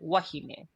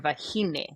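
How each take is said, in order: First: It is said the Māori way, with a W. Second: It is said the Hawaiian way, stressing the middle.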